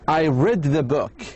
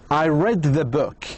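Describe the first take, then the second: Both takes have the same delivery.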